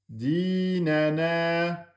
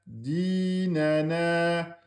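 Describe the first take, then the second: The two takes are said the same way.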